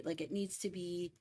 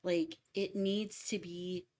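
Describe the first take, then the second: First: Said in the usual way. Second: Slow, drawn out, with the weight landing on "to"; stressed word demo. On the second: Shown as a demonstration. Explaining lyric stress to a cowriter, slow and deliberate. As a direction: stretch "Like, it needs to be" and lean on "to". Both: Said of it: "correct word stress".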